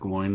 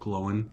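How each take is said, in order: First: The name rhymes with 'groin', one syllable. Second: The name sounds like 'glow-in', two syllables. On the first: The speaker calls it wrong. "not Gloin, like they say in the movies" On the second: The speaker calls it right. "it is pronounced Glowin"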